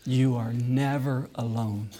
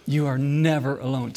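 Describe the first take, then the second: First: Slow tender reassurance. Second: Never pressed a little firmer; stress on never. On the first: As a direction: lay it down tenderly. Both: Shown as a demonstration.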